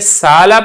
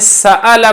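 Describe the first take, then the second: First: The middle is a plain long a vowel. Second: The middle has a full glottal stop. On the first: "यहां पे आपने अलिफ पढ़ा है" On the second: "यहां पे आपने हमजा पढ़ा है"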